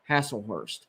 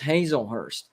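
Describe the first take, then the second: First: The name begins with a sound like 'hassle'. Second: The name begins with a sound like 'hazel'. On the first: The speaker calls it wrong. "What was I saying?" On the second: The speaker calls it right. "It's Hazelhurst"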